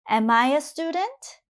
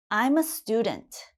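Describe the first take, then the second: First: "Am I a student" climbing steadily to a high end; rising question intonation. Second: "I'm a student" as a statement, voice falling on student; falling statement intonation. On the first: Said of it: "my intonation goes up for the question". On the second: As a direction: let "student" drop to a calm full stop. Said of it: "When I say it in a sentence". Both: Shown as a demonstration.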